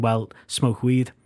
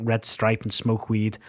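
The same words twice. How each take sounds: First: Slow, dry, knowing pause before smoke weed; deadpan callback. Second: Said in the usual way. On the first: A narrator's reading. Admitting both bands did the same, deadpan and slow. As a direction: let the punchline land slowly and dryly.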